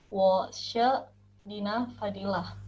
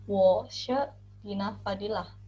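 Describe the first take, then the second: No difference in how they are said.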